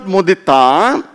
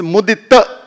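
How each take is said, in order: First: "mudita" with the final a drawn out long; "mudita" with a stretched last vowel; wrong long a. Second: "mudita" ending on a short, clipped "ta"; short final a. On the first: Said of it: "Not long a". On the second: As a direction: say "mudita" with the last "a" kept short. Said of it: "ta, ta, not a". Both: Shown as a demonstration.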